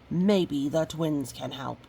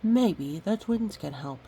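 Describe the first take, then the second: First: It sounds frustrated and a bit mean. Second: It sounds gentle and friendly, not frustrated.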